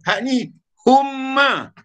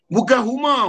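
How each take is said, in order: First: The m sound is held long. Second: The m sound is short. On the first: The speaker calls it right. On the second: The speaker calls it wrong. "Huma tu padi atas bukit"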